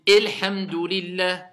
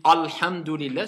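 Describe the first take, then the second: First: Elhamdulillah with a closed é at the start; prononciation fautive. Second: Alhamdulillah with a heavy, back A; prononciation fautive. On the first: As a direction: overdo the wrong é in Elhamdulillah. (prononciation fautive, Elhamdulillah avec un é fermé) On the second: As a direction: overdo the wrong dark A in Alhamdulillah. (prononciation fautive, Alhamdulillah avec un A lourd) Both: Shown as a demonstration. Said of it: "c'est pas bon".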